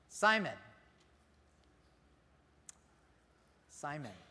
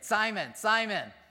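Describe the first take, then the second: First: It sounds tender and pleading, full of care. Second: It sounds like a sharp call for attention.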